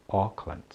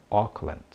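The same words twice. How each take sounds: No difference in how they are said.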